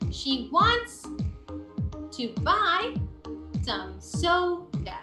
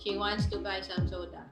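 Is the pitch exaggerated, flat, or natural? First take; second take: natural; flat. First: The pitch rises on key words, then falls. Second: The pitch stays flat and monotonous throughout. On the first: The speaker calls it right. "that's where you want to rise" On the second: The speaker calls it wrong. "there's no rising and falling there"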